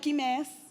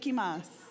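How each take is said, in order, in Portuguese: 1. A última sílaba tem a vogal 'e'. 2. A última sílaba tem a vogal 'a'. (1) "que é Quimés" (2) "eu falei Quimás"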